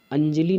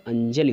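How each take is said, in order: First: अंजलि with a long, higher final ee; wrong form. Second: अंजलि with a short final i; correct form. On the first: Teacher citing a common error, अंजलि said higher as anjalee. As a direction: stretch the end of अंजलि into anjalee. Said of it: "अंजलि नहीं होता है". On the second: Teacher giving the correct word, अंजलि with short i. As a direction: keep the end of अंजलि short, anjali. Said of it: "अंजलि होता है". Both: Shown as a demonstration.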